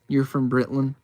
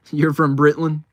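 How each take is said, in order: First: Said in the usual way. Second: Said through a real laugh. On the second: Real, not acted. Streamer repeats a viewer's line back, laughing.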